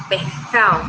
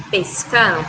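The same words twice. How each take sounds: First: "pescado" said as "pe'cao", s and d dropped; "pescado" cut down to "pehcao", Colombian coast style; coastal pronunciation. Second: Said in the usual way. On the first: Shown as a demonstration. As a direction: swallow the s and d in "pescado". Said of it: "dicen pescado". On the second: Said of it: "ellos no dicen pescado".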